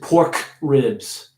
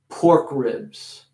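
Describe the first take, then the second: First: The K at the end of pork is heavy. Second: The K at the end of pork is light. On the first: The speaker calls it wrong. "Nobody says pork ribs" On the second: The speaker calls it right. "I'm making the K a little smaller when I'm putting it in a sentence"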